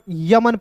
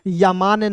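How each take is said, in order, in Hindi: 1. दूसरा स्वर ह्रस्व है। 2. दूसरा स्वर दीर्घ है। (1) "यमन पढ़ेंगे" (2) "यमान नहीं पढ़ेंगे"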